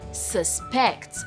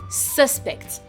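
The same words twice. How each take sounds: First: The stress is on the second syllable. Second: The stress is on the first syllable. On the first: It is the action of suspecting someone. "it's on the second syllable" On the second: It names a person suspected of something. "the stress is on the first syllable"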